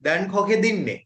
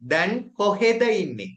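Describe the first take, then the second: First: The two words merge into one run-together word. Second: The two words are said separately and fully. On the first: This is the everyday spoken form. "எப்படி பாவிப்பினோம்டா" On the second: This is the written, grammar-book form. "ரிட்டன் format"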